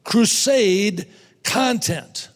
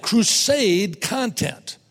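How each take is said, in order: First: "Crusade content" repeated, slower still and firmer; slow repeated emphasis. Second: "crusade content" spoken very slowly, each word weighted; slow emphasis. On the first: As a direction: hammer home "Crusade content" a second time. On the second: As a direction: lay down "crusade content" like a heading. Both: Shown as a demonstration. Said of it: "Number five".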